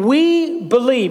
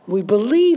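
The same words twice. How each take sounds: First: The words sound firm and confident. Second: The words sound hesitant and unsure. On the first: The speakers are fully committed to this truth. The speaker calls it right. "If you can get the tone of my voice. He is saying" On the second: The outcome is only hoped for, not assured. The speaker calls it wrong. "He's not saying that this is something that we're not certain about"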